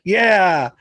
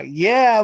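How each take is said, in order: First: "Yeah" settling back down; mildly relieved, drawn-out agreement; brought-back-down yeah. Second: Higher-pitched, hyped "Yeah"; mildly hyped-up cheer; built-up yeah. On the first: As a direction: say "Yeah" like coming down from a shock. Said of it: "brought it back down to". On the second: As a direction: say "Yeah" as if being swept up. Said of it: "took me to, like, a". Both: Retold or imitated.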